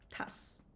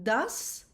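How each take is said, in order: First: The word begins with a voiceless t sound. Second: The word begins with a voiced d sound. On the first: This is the Western Armenian form. "we say t in Western Armenian" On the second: This is the Eastern Armenian form. "When we have a letter d in Eastern Armenian"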